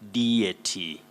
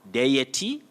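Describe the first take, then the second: First: The first vowel is plain without a glide. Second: The first vowel glides like 'ay'. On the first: "and you also say deity" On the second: "deie with that glide aye"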